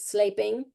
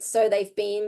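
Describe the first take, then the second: First: The s swallows nearby sounds, blurring the words together. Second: Each sound is said clearly and fully.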